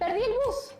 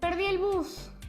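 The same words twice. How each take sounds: First: It is said with surprise. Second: It is said with sadness.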